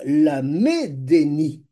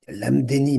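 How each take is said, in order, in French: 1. Une voyelle brève s'entend après le m. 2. Le m se joint directement au d. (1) "le dagesh impose de prononcer le E, le Sheva Na" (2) "mais quoi, c'est pas ça"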